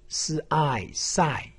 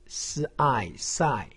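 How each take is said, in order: Both takes have the same delivery.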